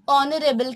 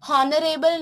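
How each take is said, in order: First: The word begins with a vowel, no h. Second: The word begins with an audible h sound. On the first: The speaker calls it right. "हम इसे ऑनरेबल कहते हैं" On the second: The speaker calls it wrong. "हम इसे हॉनरेबल नहीं कहते"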